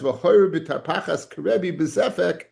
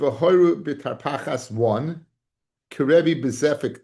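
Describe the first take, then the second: First: It is read as one phrase, without a break. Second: It is read as two phrases, with a break.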